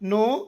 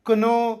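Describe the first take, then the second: First: No k sound is heard; it starts with n. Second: A k sound is heard before the n. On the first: The speaker calls it right. "ಇದು ನೋ" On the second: The speaker calls it wrong. "ಅಲ್ಲ"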